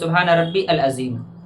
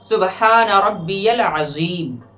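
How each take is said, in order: First: Rabbi and al are said as separate words. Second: Rabbi links to al with a y glide. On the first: The speaker calls it wrong. "या सुबहान रब्बी अल अज़ीम" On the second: The speaker calls it right. "बल्कि पढ़ना है"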